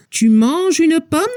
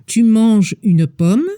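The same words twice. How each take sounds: First: Tune rising at the end of "pomme"; question rise. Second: Said in the usual way. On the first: Shown as a demonstration. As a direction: lift the voice on "Tu manges une pomme?". (entonación ascendente al final de "pomme") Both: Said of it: "La diferencia está en la entonación de la voz".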